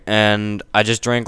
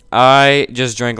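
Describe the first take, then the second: First: Said in the usual way. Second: Slower and louder; louder retake. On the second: Real, not acted. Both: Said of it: "I cannot hear myself talking".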